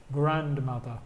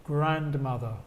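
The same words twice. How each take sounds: The two takes are said the same way.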